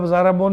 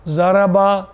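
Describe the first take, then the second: First: ضربٌ ending in a nasal "-un"; wrong tanween ending. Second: Said in the usual way. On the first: Shown as a demonstration. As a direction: say ضربٌ with "-un" for the final "-a". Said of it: "نہیں پڑھیں گے". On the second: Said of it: "کبھی آپ ضربٌ نہیں پڑھیں گے".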